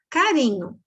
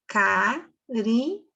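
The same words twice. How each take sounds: First: Said in the usual way. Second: "Carinho" slowly broken into CA... RI... NHO; three separate beats on "Carinho", pausing after each; split syllables. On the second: Shown as a demonstration. Teacher counting syllables for pupils, "Carinho" split in three. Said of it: "Três sílabas".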